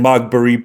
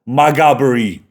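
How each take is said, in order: First: The name is said with three syllables. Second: The name is said with four syllables. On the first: The speaker calls it wrong. "I was saying Magbury" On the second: The speaker calls it right. "it's pronounced, I do believe, Maghaberry"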